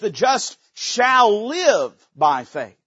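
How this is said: The stress is on "shall live".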